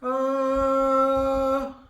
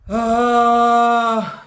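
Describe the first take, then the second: First: A muffled, suffocated sound through the nose. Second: A deep, full sound from the belly. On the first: The speaker calls it wrong. "The sound is suffocated through the nose" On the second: The speaker calls it right. "the voice is coming from the belly, and it's, it's a deep voice"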